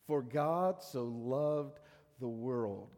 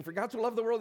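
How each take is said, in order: First: For God so loved the world said very slowly, word by word; slow and deliberate. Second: For God so loved the world rushed out as fast as possible; rattled off fast. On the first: Sunday school teacher showing the boys, slow and deliberate. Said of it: "it doesn't matter how fast you can say it". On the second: A boy racing to recite for his Sunday school teacher, rattled off fast. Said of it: "trying to see who could say it the fastest". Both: Retold or imitated.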